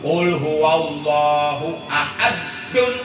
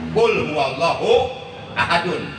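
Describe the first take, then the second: First: The d sound in the last word is doubled. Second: The d sound in the last word is short. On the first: God is sharp. The speaker calls it wrong. "kalimat ahadnya ditasdidkan, itu berubah makna" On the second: God is One. The speaker calls it right. "kalau ahadun itu mengandung arti esa"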